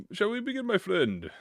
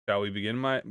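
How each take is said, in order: First: High, showy shall we begin; theatrical invitation. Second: Said in the usual way. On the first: Shown as a demonstration. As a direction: play it like a grand host. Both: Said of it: "retake of the same line".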